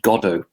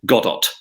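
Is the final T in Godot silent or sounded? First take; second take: silent; sounded. First: The final T is silent. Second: The final T is clearly sounded. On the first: "It's pronounced Godot" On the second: "hard T at the end"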